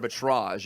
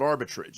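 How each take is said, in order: First: The word has a French-style pronunciation. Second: The word has a plain English pronunciation.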